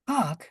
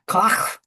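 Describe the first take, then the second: First: The name is said with English pronunciation. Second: The name is said imitating German pronunciation. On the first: "I'm saying that with the enunci- English pronunciation" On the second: "It's something like Koch"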